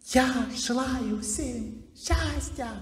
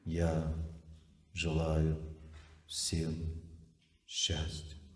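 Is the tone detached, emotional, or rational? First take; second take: emotional; detached. First: It is said with strong emotional feeling. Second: It is said in a detached, unreactive manner. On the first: The words come from emotion. The speaker calls it wrong. "Вот как выглядит звук эмоций?" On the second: The words come from memory. The speaker calls it right. "Звук памяти, он отстраненный"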